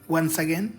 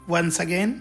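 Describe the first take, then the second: No difference in how they are said.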